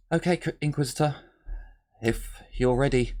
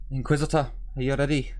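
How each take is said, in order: First: Put-on sergeant on the comms in a light American accent; a hint of American twang on "Inquisitor, if you're ready". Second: Put-on sergeant on the comms in a Scottish accent; light Scottish lilt on "Inquisitor, are you ready". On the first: Sergeant over comms to the Inquisitor, light American accent. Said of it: "Did you all like the American accent". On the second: Sergeant over comms to the Inquisitor, light Scottish accent. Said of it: "Did she have a Scottish accent?".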